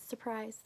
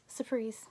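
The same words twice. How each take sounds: First: A hint of the theatrical villain drawing out surprise; Jim Carrey surprise. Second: Said in the usual way. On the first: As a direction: lightly mimic a hammy showman saying surprise. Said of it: "Jim Carrey's series of unfortunate events way of saying surprise". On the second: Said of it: "that's surprise".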